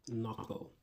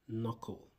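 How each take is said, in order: No difference in how they are said.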